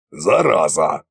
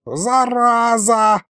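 First: Low, short curse under modest force; low grumbled curse. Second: High, long-drawn yell at modest volume; wailed curse. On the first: Acted. Tsar thanking the narrator with a curse, low grumble. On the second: A narrator's reading. Sorcerer punched and fleeing, high wail. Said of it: "завопил колдун".

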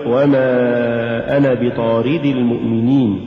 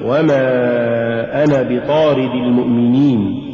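First: وما أنا بطارد المؤمنين with too much stress on رِ; بطارد, accent shifted onto the ra; overstressed ra. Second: Said in the usual way. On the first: Shown as a demonstration. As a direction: punch the رِ in بطارد. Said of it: "ولا تقل". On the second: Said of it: "قل".

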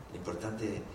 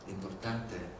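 The two takes are said the same way.

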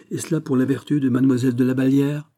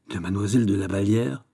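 First: Higher, pointed accusation; exasperated challenge. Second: Understated astonished echo, rising at the end; startled disbelief. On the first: Princess naming the lady to the courtier, heatedly. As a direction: throw the lady's name at him. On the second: Courtier feigning shock at the name, startled. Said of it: "en faisant un soubresaut subit". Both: A narrator's reading.

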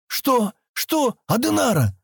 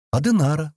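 First: High, incredulous questioning; astonished. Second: Said in the usual way. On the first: A narrator's reading. Sten stunned by the girl's name, astonished. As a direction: repeat it in sharp disbelief, pitch leaping up. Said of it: "Он изумлённо уставился на неё". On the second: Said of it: "просто ответила девушка".

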